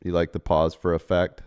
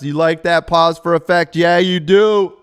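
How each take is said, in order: First: Said in the usual way. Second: Mock dramatic, higher and louder; hammed-up drama voice. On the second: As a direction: ham it up like a stage actor. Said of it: "I wasn't even in drama class".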